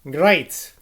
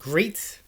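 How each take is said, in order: First: The vowel rhymes with state. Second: The vowel rhymes with seat. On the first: "none but an Irishman would pronounce it great" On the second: "it should be pronounced so as to rhyme with seat, like great"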